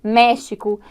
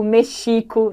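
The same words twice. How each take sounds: First: "México" stressed on MÉ; correct stress. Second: "Mexico" stressed on XI, the middle syllable; misplaced stress. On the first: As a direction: hit the first syllable of "México". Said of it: "é fundamental que esses acentos apareçam". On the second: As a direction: mispronounce "Mexico" as me-XÍ-co. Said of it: "não vai dar certo". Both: Shown as a demonstration.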